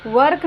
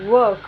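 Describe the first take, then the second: First: वर्क with a full, hard r before the k; wrong pronunciation. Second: वर्क with the r barely sounded; loud, falling वर्क, just a hint of r; soft-r pronunciation. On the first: Teacher shows learners what to avoid, wrong pronunciation. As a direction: sound out every consonant in वर्क, r fully pronounced. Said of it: "नहीं पढ़िएगा". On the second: Teacher corrects how learners read it, soft-r pronunciation. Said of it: "थोड़ा उच्चारण आने दीजिएगा". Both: Shown as a demonstration.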